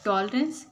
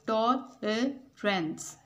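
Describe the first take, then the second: First: Said in the usual way. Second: "टॉलरेंस" in three separated beats; syllable by syllable. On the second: Shown as a demonstration. ("टॉलरेंस" को तीन हिस्सों में तोड़कर, टॉ-ल-रेंस) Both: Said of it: "three syllables हैं".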